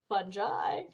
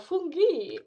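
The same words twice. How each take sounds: First: The word has a plain English pronunciation. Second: The word has an Italian-style pronunciation.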